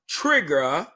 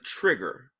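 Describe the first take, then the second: First: The final r sound is dropped. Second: The final r sound is pronounced. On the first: "or trigger" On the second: "instead of trigger"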